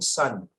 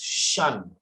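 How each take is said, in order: First: The syllable starts with a hissing s sound. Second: The syllable starts with a hushing sh sound. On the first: The speaker calls it wrong. "for you it is becoming sun" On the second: The speaker calls it right. "remember shun, it is shun"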